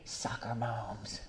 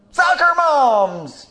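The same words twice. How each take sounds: First: Much softer, slow aside; soft slow muttered aside; muttered first time. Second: High, loud and slow; high slow shouted repeat. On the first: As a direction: say it under your breath first. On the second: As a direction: shout it so the back row hears. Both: Real, not acted. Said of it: "In case you didn't hear me the first time".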